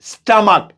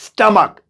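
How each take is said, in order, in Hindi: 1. पहला स्वर 'uh' जैसा बोला जाता है। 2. पहला स्वर 'uh' जैसा बोला जाता है।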